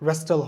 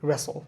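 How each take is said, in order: First: A t sound is pronounced in the middle. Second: No t sound is pronounced in the middle. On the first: The speaker calls it wrong. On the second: The speaker calls it right.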